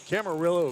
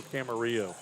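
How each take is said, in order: First: Camarillo with an English L, "kam-uh-RILL-oh"; Anglicized Camarillo, ending "RILL-oh"; pronounced with L. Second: Camarillo with a silent L, "kam-uh-REE-oh"; Spanish-style Camarillo, ending "REE-oh"; Spanish pronunciation. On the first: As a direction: sound the double L in Camarillo as L. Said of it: "Is it Camarillo or Camarillo?". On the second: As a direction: say the double L in Camarillo as a Y glide. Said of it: "Spanish pronunciation". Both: Shown as a demonstration.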